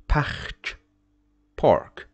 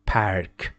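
First: Park in French, no English r; French parc. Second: Park with an English r; English park, the wrong way. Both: Shown as a demonstration. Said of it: "Don't say".

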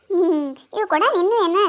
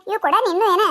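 First: Blunt demand with a falling end; flat accusing ask; accusing question. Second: Half-amused, teasing query; chuckling, lifted ask; laughing question. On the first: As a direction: press her on whose pot it is. Asks who owns the pot. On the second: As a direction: ask it with a laugh and a rising end. Same question asked again. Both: Acted.

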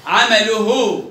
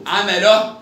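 First: Slow, loud عمله ending in -uhu; damma on haa. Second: Slow, loud عمله ending in -oh; sukun on haa. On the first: Teacher tests the haa, عمله ending in -uhu. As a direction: finish عمله with full -uhu. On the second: Teacher tests the haa, عمله ending in -oh. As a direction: end عمله on h. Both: Shown as a demonstration. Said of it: "نطقت هاء وهاء".

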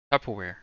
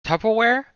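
First: Said in the usual way. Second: Tupperware? asked high and loud with a steep rise; puzzled question. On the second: Shown as a demonstration. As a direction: sound baffled, pushing Tupperware? way up at the end. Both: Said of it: "What is this word?".

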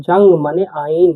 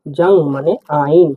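First: Said in the usual way. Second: জাং মানে আইন said slower, word by word; slow teacher repeat. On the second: Shown as a demonstration. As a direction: spell it out slowly for the class.

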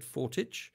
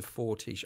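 First: Fortich, ending in a hard tch; alternative pronunciation. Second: Said in the usual way. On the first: Shown as a demonstration. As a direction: say Fortich with a ch at the end. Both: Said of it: "I would have said Fortich".

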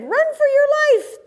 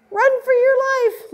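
First: High, frantic squeal of alarm once more; panicked cry. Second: High, frantic squeal of alarm; panicked cry. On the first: Prairie dogs flee again. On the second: Prairie dogs flee in panic. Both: Acted. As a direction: shriek it like a scared little critter.

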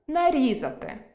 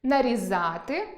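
First: Нарізати stressed on the і, нарІзати; нарізати, perfective stress. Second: Нарізати stressed on the а, нарізАти; нарізати, imperfective stress. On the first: Teacher demonstrates perfective stress, нарІзати. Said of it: "доконаний". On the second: Teacher demonstrates imperfective stress, нарізАти. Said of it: "недоконаний". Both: Shown as a demonstration.

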